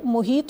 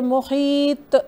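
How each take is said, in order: First: The final consonant stops flat with no echo. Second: The final consonant ends with an echoing bounce. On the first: The speaker calls it wrong. "ना ही ये मुहीत होगा" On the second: The speaker calls it right. "बल्कि मुहीत ... एक्विंग साउंड इसके साथ क्रिएट करेंगे"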